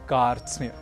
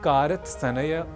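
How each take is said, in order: First: The consonants are joined without vowels between. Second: Extra vowels break up the consonant cluster. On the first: The speaker calls it right. "हमें कहना है" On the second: The speaker calls it wrong. "न कहकर"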